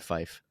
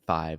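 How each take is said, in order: First: The word ends with an 'f' sound. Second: The word ends with a 'v' sound. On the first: "So it's tree and fife" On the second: "three and five are hard for non-native English speakers to say"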